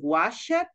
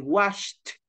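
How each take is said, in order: First: The ending is an extra 'ed' syllable. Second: The ending is a short 't' sound. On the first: The speaker calls it wrong. "instead of saying" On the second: The speaker calls it right. "we say"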